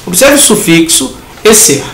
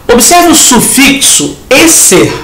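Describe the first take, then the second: First: Said in the usual way. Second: "Observe o sufixo ecer" said slowly and higher, leaning on "Observe"; emphatic, slow. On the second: Shown as a demonstration. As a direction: point hard at "ecer", slow and raised.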